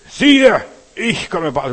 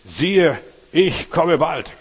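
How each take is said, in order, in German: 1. Es wird am lautesten gelesen, mit viel Energie. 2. Es wird lauter gelesen als vorher. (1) "ich muss jetzt noch lauter, richtig mit Pep und Power" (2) "wenn er lauter liest"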